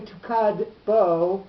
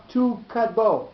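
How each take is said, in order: First: "tukad bo" slowly, kad and bo both stressed; two accents colliding. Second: "tu kadbo" with tu stressed and kadbo following lighter; accent on TU. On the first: Teacher shows what can't be said, "tukad bo" with adjacent stresses. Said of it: "you can't say tukad bo". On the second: Teacher shows the correct reading, "tu kadbo" accented on tu. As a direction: hit TU first in "tu kadbo". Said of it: "with the accent on tu". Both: Shown as a demonstration.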